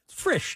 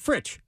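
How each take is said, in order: First: The name ends with a soft sh sound. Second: The name ends with a ch sound. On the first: The speaker calls it wrong. "I've been calling him Brad Frisch" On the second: The speaker calls it right. "he pronounces it Fritch"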